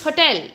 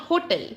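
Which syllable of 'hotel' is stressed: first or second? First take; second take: second; first. First: The stress is on the second syllable. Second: The stress is on the first syllable. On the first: The speaker calls it right. "you need to give stress on the second syllable, which is tell. It's hotel" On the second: The speaker calls it wrong. "not hotel"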